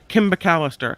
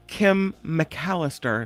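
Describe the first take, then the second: First: The name is split as Kimba Callister. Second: The name is split as Kim McAllister. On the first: The speaker calls it wrong. "it comes out like Kimba Callister" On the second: The speaker calls it right. "what I meant to say is Kim McAllister"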